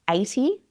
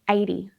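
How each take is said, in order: First: The T is a crisp, fully released T. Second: The T is softened, not a crisp T.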